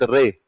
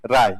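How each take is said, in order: First: The surname is said with an 'ay' vowel. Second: The surname is said with an 'aai' vowel. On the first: The speaker calls it wrong. "Satyajit रे नहीं है" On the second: The speaker calls it right. "वास्तव में क्या आना चाहिए?"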